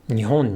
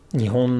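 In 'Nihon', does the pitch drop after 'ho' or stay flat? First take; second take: drop; flat. First: The pitch drops after the syllable ho. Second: The pitch stays flat with no drop. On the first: "the downstep for Japan, Nihon, is on the ho" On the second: "as if it were a heibang word"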